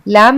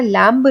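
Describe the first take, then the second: First: लैम ending on m, b silent; correct pronunciation. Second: लैम्ब with the final b sounded; wrong pronunciation. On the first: Teacher showing how we read the word, correct with silent b. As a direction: leave the b off लैम. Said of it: "लैम में को हम लैम पढ़ते हैं". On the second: Teacher showing what we don't read, mispronounced with audible b. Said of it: "लैम्ब नहीं पढ़ते हैं". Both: Shown as a demonstration.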